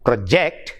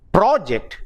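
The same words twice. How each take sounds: First: Pro-JECT, light start, rising onto JECT; second-syllable stress on project. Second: PRO-ject, high first syllable, then falling; first-syllable stress on project. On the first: Teacher explaining the verb use, stressed pro-JECT. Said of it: "stressed on the second syllable". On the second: Teacher explaining noun or adjective use, stressed PRO-ject. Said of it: "stress on the first syllable". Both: Shown as a demonstration.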